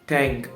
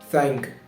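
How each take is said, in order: First: It begins without a th sound. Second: It begins with a th sound, tongue between teeth. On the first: The speaker calls it wrong. "If I don't pronounce the th sound, it will sound like this" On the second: The speaker calls it right. "when I pronounce the th sound, my tongue comes between my upper teeth and lower teeth"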